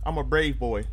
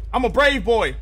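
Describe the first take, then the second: First: Said in the usual way. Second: Put-on louder brave boy. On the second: Repeating brave boy, building louder.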